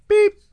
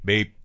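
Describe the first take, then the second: First: The beep is short and higher in pitch. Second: The beep is short and lower in pitch. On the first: "Do them a little higher" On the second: "Let me do a short beep"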